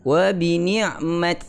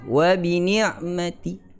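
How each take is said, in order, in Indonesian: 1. Konsonan akhir tidak diikuti vokal sama sekali. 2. Konsonan akhir diikuti vokal pendek yang samar. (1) "berhenti dengan sukun" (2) "ar-raum, sikit je"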